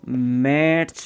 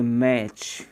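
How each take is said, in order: First: "मैच" with an audible T before CH; wrong T-sounded pronunciation. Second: "मैच" ending straight on CH, no T; silent T. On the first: Teacher shows learners what to avoid, "मैच" with audible T. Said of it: "नहीं बोलेंगे". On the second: Teacher models the correct word for learners, "मैच" with silent T. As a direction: drop the T in "मैच". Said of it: "टी silent है". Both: Shown as a demonstration.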